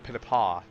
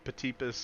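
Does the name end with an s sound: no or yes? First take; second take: no; yes. First: The name ends without an s sound. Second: The name ends with an s sound. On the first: The speaker calls it right. "without the S" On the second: The speaker calls it wrong. "I've been pronouncing that wrong since day one"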